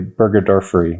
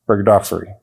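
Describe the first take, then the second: First: The word is said slowly and carefully. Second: The word is said quickly and slurred. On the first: The speaker calls it right. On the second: The speaker calls it wrong.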